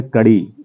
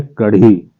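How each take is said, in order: First: कड़ी with a quick unaspirated ड़ flap; plain flap in कड़ी. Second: कढ़ी with a breathy flapped ढ़; aspirated flap in कढ़ी. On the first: Teacher contrasting the chain-link word कड़ी. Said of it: "हम बोलेंगे कड़ी". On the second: Teacher contrasting the food word कढ़ी. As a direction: say कढ़ी with air on the ढ़. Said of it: "तो हम अगर बोलेंगे कढ़ी". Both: Shown as a demonstration.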